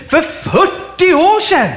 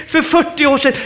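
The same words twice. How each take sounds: First: High, drawn-out disbelieving question; incredulous echo. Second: Lightly voiced protesting believer; raised pitch, running straight through the excuse; congregant's excuse. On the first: Acted. Preacher answering a believer's old excuse, loudly incredulous. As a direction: throw the excuse back, stretching it out slowly. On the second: Believer excusing themselves to the preacher, mildly protesting.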